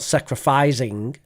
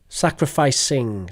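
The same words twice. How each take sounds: First: The middle s sound is buzzed, like a z. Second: The middle s sound is hissed, without voice. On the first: The speaker calls it wrong. "Not sacrificing" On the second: The speaker calls it right. "so unvoiced sibilant"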